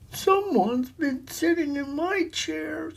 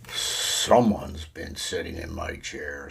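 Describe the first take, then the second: First: It is said in a little voice. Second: It is said in a great big voice.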